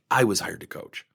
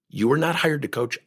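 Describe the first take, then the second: First: "I" stressed, dropping low at the end. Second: "not" leaned on, falling firmly; stress on not. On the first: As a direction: hit the word "I" against "you". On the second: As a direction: hit the word "not" hard to contrast. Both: Real, not acted.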